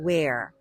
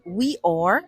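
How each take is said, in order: First: Merged quickly into a single syllable. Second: Two separate, fully pronounced words. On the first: "باقولها wear" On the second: "بدل ما أقول we are"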